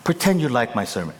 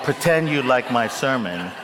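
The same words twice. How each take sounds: First: Said in the usual way. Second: Repeating own line through laughter; laughing quote. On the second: Retold or imitated. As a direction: chuckle while quoting yourself. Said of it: "when we edit, we'll take out".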